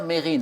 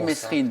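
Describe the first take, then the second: First: No S sound is heard before the R. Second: An S sound is heard before the R. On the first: The speaker calls it right. "c'est bien Mérine, on ne prononce pas le S" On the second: The speaker calls it wrong. "souvent on dit Messrine"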